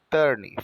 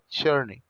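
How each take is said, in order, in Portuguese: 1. A palavra começa com um t simples. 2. A palavra começa com som parecido com ch. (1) "Ao invés de falar turn" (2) "faz um charme no T, fala churn"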